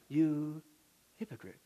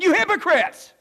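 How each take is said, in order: First: It is said quietly and politely. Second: It is said loudly and forcefully.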